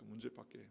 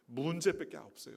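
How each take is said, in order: First: Much softer, trailing echo. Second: Said in the usual way. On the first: Acted. Preacher echoing his point to the congregation, much softer. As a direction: let the word fall away quietly.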